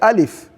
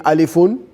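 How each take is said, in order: First: The name ends bare, with no added ending. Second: The name ends with an added 'un' ending. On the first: The speaker calls it right. "you say alif" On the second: The speaker calls it wrong. "Are you saying alifun? No"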